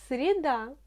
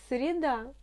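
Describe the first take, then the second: Both takes have the same delivery.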